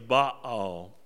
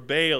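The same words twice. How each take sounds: First: It is said with the Hebrew pronunciation. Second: It is said with an English pronunciation.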